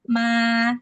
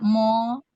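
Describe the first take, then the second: First: The m and its vowel sound thin and light. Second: The m and its vowel sound thick and heavy. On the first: The speaker calls it right. "huruf mim tetap harus dibaca tipis" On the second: The speaker calls it wrong. "tidak mo"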